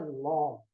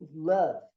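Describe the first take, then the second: First: The vowel sounds like an 'o'. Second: The vowel sounds like an 'a'. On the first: The speaker calls it wrong. "a pronúncia não é love" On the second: The speaker calls it right. "A pronúncia é love"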